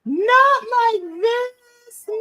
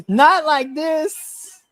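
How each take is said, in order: First: High, slow wailing cry; anguished wail. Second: High, slow mock cry; mock wail. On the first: Real, not acted. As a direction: wail it in fan despair. Fan despair at spear. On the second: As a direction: wail it again, hammed up. Retold wail.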